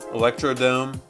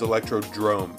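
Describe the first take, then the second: First: The last syllable is said as 'dome'. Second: The last syllable is said as 'drome'. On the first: The speaker calls it wrong. "I mispronounced this" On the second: The speaker calls it right. "It's not Electrodome. It's Electrodrome"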